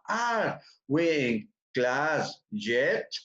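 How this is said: Each word is said separately with small gaps. It is said this way so learners can hear and understand each word. "con una pequeña separación para que se escuche y se entienda"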